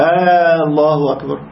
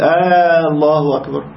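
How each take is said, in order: First: The opening vowel is stretched long. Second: The opening vowel is stretched long.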